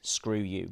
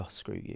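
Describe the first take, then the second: First: Said in the usual way. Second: Breathy whispered screw you; whispered delivery. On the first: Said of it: "there might be a line like". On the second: Shown as a demonstration. Actor trying a different line reading, whispered. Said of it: "you could go".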